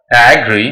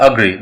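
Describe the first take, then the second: First: "agree" with a full open a at the start; wrong pronunciation. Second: "agree" opening on a weak schwa; correct pronunciation. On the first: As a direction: say "agree" opening on a clear sheep-sound A. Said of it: "It's not a". ("agree" का गलत उच्चारण, शुरू में पूरा ऐ) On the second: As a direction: reduce the first vowel of "agree" to uh. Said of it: "it's a agree". ("agree" का सही उच्चारण, शुरू में हल्का अ) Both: Shown as a demonstration.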